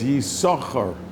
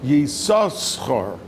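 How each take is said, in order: First: The name has one s sound. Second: The name has two s sounds. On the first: One letter was given away from the name. "the Baal Korah only says Yisachar" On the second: The name still has both of its letters. "we pronounce it with both shins"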